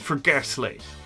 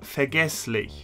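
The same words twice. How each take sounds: First: It is said with a harsher American-style accent. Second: It is said with a standard German accent. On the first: This is the Pennsylvania German word. "the American counterpart actually sounds a lot harsher in this case" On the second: This is the original German word. "It comes from the German word vergesslich"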